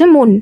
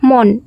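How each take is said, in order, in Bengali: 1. এটি সংবৃত ও ধ্বনি। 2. এটি বিবৃত ও ধ্বনি।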